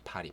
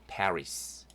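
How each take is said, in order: First: The name is said with Korean pronunciation. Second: The name is said with English pronunciation.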